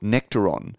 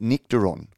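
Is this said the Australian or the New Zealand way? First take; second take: Australian; New Zealand. First: It is said with an Australian pronunciation. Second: It is said with an imitated New Zealand pronunciation. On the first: "what we would call Nectaron" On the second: "I think the New Zealanders pronounce it Nectaron"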